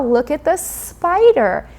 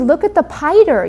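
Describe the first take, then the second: First: The word spider is said with every sound. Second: The word spider is said with a sound missing. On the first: The adult models the correct sound. The speaker calls it right. "And I add that sound as a model" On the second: A young child is still learning the sound. The speaker calls it wrong. "If your child says"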